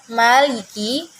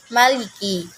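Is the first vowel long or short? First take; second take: long; short. First: The first vowel is held long. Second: The first vowel is short.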